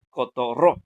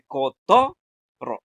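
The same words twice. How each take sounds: First: The stress is on the last syllable. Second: The stress is on the middle syllable. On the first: The speaker calls it wrong. "esa última la decimos eh, fuerte" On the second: The speaker calls it right. "ponemos la fuerza en la to"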